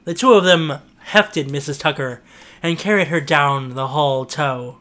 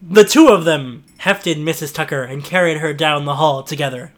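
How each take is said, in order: First: Said in the usual way. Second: "together" said cleanly as one word; corrected reading. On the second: Acted. Narrator rereading after the mistake, "together" corrected. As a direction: fix it, say "together" plainly. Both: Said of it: "I think I meant together".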